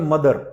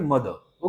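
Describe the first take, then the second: First: The final r is pronounced strongly. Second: The final r is soft, nearly silent. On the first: "American English में मदर, रा पे पूरा जोर दिया गया" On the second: "British English में"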